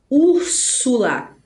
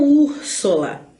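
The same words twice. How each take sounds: First: Úrsula said slowly with a clear u, ur-su-la; careful, slow Úrsula; correct Úrsula. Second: Úrsula said as Úrsola, u turned to o; wrong Úrsula. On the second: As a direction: mistaken Úrsula with o. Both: Shown as a demonstration. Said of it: "e não Úrsula".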